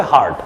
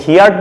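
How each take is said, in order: First: হার্ড as one syllable, "hard"; no "ee" glide in হার্ড; correct "heard" demo. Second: হিয়ার্ড said as "hee-ard"; wrong two-vowel হিয়ার্ড, hear plus d; mispronounced "heard". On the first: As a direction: say হার্ড with one open vowel. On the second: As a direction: put an "ee-a" glide into হিয়ার্ড. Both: Shown as a demonstration. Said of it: "উচ্চারণটা হবে হার্ড".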